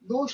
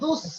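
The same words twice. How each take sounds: First: The final consonant is a 'sh' sound. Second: The final consonant is an 's' sound. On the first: The speaker calls it wrong. "দুস না" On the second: The speaker calls it right. "সিন হবে দুস"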